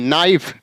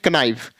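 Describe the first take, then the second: First: The word begins with an n sound. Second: The word begins with a k sound. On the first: The speaker calls it right. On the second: The speaker calls it wrong.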